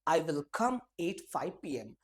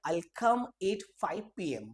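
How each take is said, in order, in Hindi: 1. 'I will' शब्द अलग-अलग और पूरे बोले जाते हैं। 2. 'I will' शब्द मिलकर 'I'll' बन जाते हैं।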